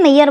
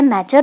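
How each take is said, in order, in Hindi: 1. बीच वाला व्यंजन 'y' ध्वनि है। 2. बीच वाला व्यंजन 'j' ध्वनि है। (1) "मेयर बोलते थे इसे" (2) "अब क्या चल रहा है, मेजर बोलते हैं"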